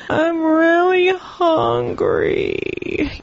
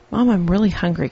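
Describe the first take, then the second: First: It is said in a whining voice. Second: It is said in a plain, polite voice.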